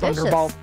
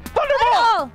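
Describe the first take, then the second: First: The word is said at a calm, normal volume. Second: The word is screamed loudly with high energy. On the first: The speaker calls it wrong. "It's not Thunderball" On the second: The speaker calls it right. "You gotta scream it"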